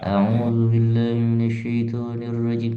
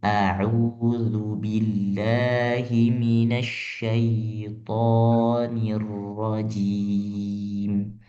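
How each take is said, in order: First: The mouth barely moves and the vowels are mumbled. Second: The mouth opens fully and each vowel is clear. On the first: The speaker calls it wrong. "mulut kita itu tidak bergerak sama sekali, itu salah" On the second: The speaker calls it right. "A, I, U itu vokalnya harus jelas"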